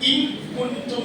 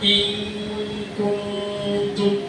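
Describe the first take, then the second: First: The n is pronounced clearly and distinctly. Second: The n is hidden into a nasal sound. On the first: The speaker calls it wrong. "എന്നല്ല. ഇൻ എന്ന് പറഞ്ഞ വെളിവാക്കി" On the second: The speaker calls it right. "എങ്ങനെയാണ് ഇൻ കുന്തും എന്ന് മതി"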